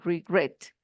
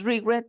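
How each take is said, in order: First: The stress is on the second syllable. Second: The stress is on the first syllable. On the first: The speaker calls it right. "sino regret. Como se tiene acento en la última sílaba" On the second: The speaker calls it wrong. "no decimos regret"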